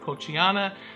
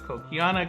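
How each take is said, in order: First: The middle consonant is a soft ch sound. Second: The middle consonant is a hard k sound. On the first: This is the common way people say it. The speaker calls it wrong. "Most people pronounce it Kochiana" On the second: This follows the name of the person who first described it. The speaker calls it right. "should be pronounced Kokiana"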